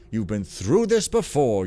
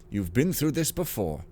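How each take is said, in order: First: Loud, bouncy old cartoon narrator; vintage cartoon voice. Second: Said in the usual way. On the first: Shown as a demonstration. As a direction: read it like a 1940s cartoon host. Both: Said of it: "golly, I talk like an old cartoon".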